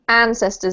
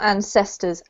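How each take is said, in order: First: The stress is on the first syllable. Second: The stress is on a later syllable. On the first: The speaker calls it right. "the emphasis is on an" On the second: The speaker calls it wrong. "not ancestors"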